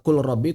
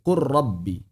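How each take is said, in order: First: The L sound is pronounced clearly before R. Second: The L sound merges into a doubled R. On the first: The speaker calls it wrong. "Tidak dibaca kul rabbi" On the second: The speaker calls it right. "tapi qur rabbi"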